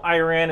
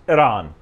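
First: Iran said as "eye-RAN"; Jersey-style pronunciation. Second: Iran said as "ih-RAHN"; correct pronunciation. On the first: Admitting how he says the country's name, Iran as "eye-RAN". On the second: Showing viewers the accepted name, Iran as "ih-RAHN". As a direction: say Iran with a short I and open A, "ih-RAHN". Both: Shown as a demonstration. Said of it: "I know Iran is pronounced Iran".

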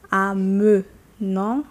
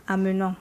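First: Amenons slowly broken up, "a-muh ... non"; syllables drawn apart. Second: Said in the usual way. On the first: Shown as a demonstration. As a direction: stretch amenons loudly, with schwa instead of eh. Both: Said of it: "you remove that sound".

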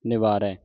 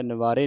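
First: ਨਿਵਾਰੈ ending in an open "ai"; ਨਿਵਾਰੈ as "ni-vaa-rai", the corrected reading. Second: ਨਿਵਾਰੇ ending in a closed "ay"; ਨਿਵਾਰੇ as "ni-vaa-ray", the mistaken reading. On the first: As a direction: open up the last vowel of ਨਿਵਾਰੈ. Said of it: "ਦੁਲਾਵਾਂ ਲੱਗੀਆਂ". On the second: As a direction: end ਨਿਵਾਰੇ on a narrow e. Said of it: "ਨਹੀਂ ਪੜ੍ਹਨਾ". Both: Shown as a demonstration.

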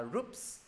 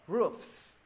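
First: ROOFS as "roops", p in place of f; wrong ending. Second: ROOFS with a true f before the s; clear enunciation. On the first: Teacher warning students, ROOFS mispronounced as "roops". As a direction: stop the lips into "ps" on ROOFS. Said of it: "Đừng đọc, đừng đọc là roofs". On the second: Teacher correcting students, ROOFS with clear f-s ending. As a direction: let air hiss through the fs in ROOFS. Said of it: "phải đọc rõ". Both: Shown as a demonstration.

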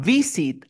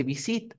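First: "Visit" with a stretched, stressed VI; stress on first syllable. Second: "visit" stressed on SIT; wrong final stress. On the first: Teacher correcting student, "Visit" stressed at the start. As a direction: hit VI slowly, let SIT drop in "Visit". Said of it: "Visit al inicio". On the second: Teacher rejecting a mistake, "visit" stressed at the end. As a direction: put the weight on SIT in "visit". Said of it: "Entonces no se dice visit". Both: Shown as a demonstration.

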